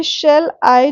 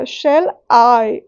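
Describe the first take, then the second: First: Said in the usual way. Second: Shall I with I drawn out and stressed. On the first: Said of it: "एक feet हो गया". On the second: Shown as a demonstration. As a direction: lean on the I in Shall I. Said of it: "I पे ज़्यादा focus जाएगा". (Shall I में I पर ज़्यादा ज़ोर)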